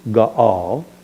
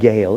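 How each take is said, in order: First: The two vowels are pronounced as separate sounds. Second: The vowels merge into one gliding sound. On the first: The speaker calls it right. "you pronounce each vowel separately" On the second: The speaker calls it wrong. "it's not Gale"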